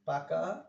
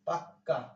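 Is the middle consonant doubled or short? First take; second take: short; doubled. First: The middle k sound is short and single. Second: The middle k sound is held and doubled. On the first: It plainly means ripe or mature. "পাকা মানে যেটা matured" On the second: It adds force and emphasis to the word. "এই যে এই বর্ণটার যে double হইল"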